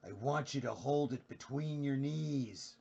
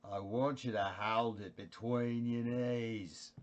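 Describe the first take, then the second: First: Slow, drawn-out Australian Jack Nicholson impression. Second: Australian Jack Nicholson. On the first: Streamer doing Jack Nicholson for chat, slow Australian accent. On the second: Pretend. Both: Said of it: "Here's an Australian Jack Nicholson".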